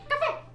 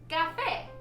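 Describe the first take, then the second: First: The word is said very quickly. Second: The word is said at a normal speed.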